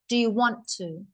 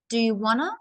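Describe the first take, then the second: First: The words 'want to' are said fully and separately. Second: The words 'want to' blend into one short word. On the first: "Wanna comes from want to" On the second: "It's a short way to say, do you want to"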